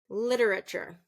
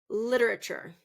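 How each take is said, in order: No difference in how they are said.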